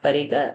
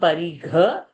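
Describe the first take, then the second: First: The gh sound is unaspirated. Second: The gh sound is aspirated. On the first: The speaker calls it wrong. "not Parigha" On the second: The speaker calls it right. "it is Mahaprana"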